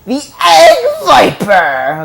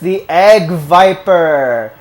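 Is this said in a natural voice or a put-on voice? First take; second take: put-on; natural. First: It is said in an imitated, put-on voice. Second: It is said in a plain, natural voice.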